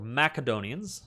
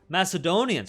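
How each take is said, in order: First: The word has a Latin-style pronunciation. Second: The word has its usual English pronunciation.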